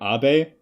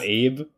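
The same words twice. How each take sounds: First: The name is said as two syllables, ah-beh. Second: The name is said as one syllable, rhyming with babe. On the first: This is how the show pronounced the name. "they called him Abe" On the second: This is how the speaker expected the name to be pronounced. "and not Abe"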